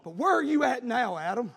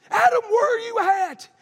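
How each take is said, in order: First: Said in the usual way. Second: Loud, high shout; a booming call of God; God calling Adam. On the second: Acted. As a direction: cry it out across the garden. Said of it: "He's saying".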